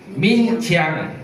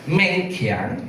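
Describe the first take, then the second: First: The name is said as Min Chiang. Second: The name is said as Meng Kiang. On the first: This is how the name is said in mainland China. "Kalau di China, daratan Tiongkok, saya dipanggil Min Chiang" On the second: This is the speaker's usual form of the name. "Seperti nama saya Meng Kiang"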